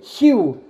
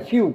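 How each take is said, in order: First: The word begins with an s sound. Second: The word begins with an f sound. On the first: "nu zicea Fiu, cum ziceam, Siu" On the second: "nu zicea Fiu, cum ziceam"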